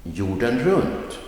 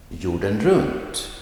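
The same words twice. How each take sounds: First: Jorden runt, stress on runt rising; set phrase stress. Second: Jorden runt, stress on runt falling; set phrase stress. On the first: Teacher repeating the set expression. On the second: Teacher modelling a set expression. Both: Shown as a demonstration. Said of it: "Listen to these examples".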